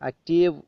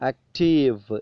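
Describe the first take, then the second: First: The final v sound is dropped or nearly silent. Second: The final v sound is clearly pronounced. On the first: The speaker calls it wrong. "അങ്ങനെ ഉച്ചരിക്കാൻ പാടില്ല. ആക്റ്റീവ് എന്ന് silent ആയി പോകാൻ പാടില്ല" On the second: The speaker calls it right. "active എന്ന് തന്നെ നമ്മൾ ഉച്ചരിക്കണം"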